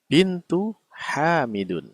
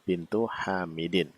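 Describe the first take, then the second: First: The final word ends with an u vowel. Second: The final word ends with an i vowel. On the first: The speaker calls it wrong. "kesalahannya di mana, yaitu kata yang kedua" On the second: The speaker calls it right. "harusnya dia berharokat kasroh"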